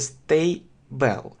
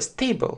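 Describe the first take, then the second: First: It is said slowly, with a vowel before L. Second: It is said quickly, with no vowel before L. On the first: "при медленном произнесении" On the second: "Но в быстро это «stable»"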